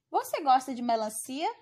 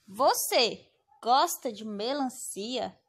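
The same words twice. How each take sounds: First: "Você gosta de melancia?" with a clear rise at the end; rising question tune. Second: Slow, careful read of "Você gosta de melancia?" as a question; teacher shows the question intonation on "Você gosta de melancia?"; questioning tune. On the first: Teacher demonstrating the question intonation to students. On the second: Teacher showing the class the question tone. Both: Shown as a demonstration. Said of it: "pela entonação da frase".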